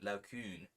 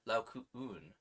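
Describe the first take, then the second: First: The last two vowels merge into one syllable. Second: The last two vowels are separate syllables. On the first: The speaker calls it wrong. "rather than" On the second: The speaker calls it right. "each of the two vowels should be sounded as separate syllables"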